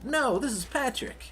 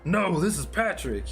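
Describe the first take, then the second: First: A put-on cartoon voice unlike Patrick's. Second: A put-on cartoon voice closer to Patrick's. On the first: The speaker calls it wrong. "that's the wrong voice" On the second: The speaker calls it right. "I can't do the voice, but it's, it's closer"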